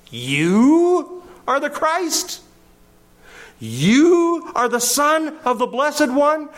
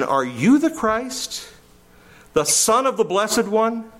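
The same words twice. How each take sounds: First: "You" drawn out very high and punched, scornful disbelief; demeaning emphasis on YOU. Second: "Are you the Christ" as a slow, higher-pitched question, rising on "Christ"; asked as a question. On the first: Acted. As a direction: stretch and hit each "You" to belittle him. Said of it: "demean and diminish and attack and insult". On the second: Shown as a demonstration. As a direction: ask whether he is "the Christ", voice lifting at the end. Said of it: "as a question".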